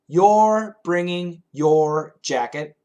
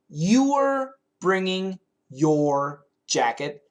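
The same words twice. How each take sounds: First: The words are somewhat reduced in a relaxed way. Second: Every word is pronounced fully and carefully. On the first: "Typical English" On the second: "Proper English"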